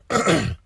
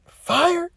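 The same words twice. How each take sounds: First: Low, dry "Fired" falling off, as if tasting it; deadpan repeat of "Fired" in a dropped voice; flat scoffing fired. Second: High, stunned "Fired?" with a lifting pitch; mock disbelief at the word "Fired?"; incredulous fired. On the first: Retold or imitated. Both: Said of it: "And I'm just like".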